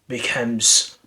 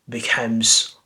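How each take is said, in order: The two takes are said the same way.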